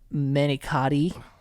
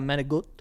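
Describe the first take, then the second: First: The word is said with a plain English pronunciation. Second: The word is said with an Italian-American pronunciation. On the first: "like uh manicotti" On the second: "I just feel weird ordering it and saying like"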